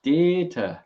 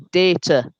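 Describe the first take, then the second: First: Data said softer, mouth pulled to the side. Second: Data said with a flat Yorkshire a, day-ta. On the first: Showing how he moves his mouth on Data, sideways. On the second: Teaching friends the Yorkshire Data, Yorkshire vowel. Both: Shown as a demonstration. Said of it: "See how I move my mouth to the side".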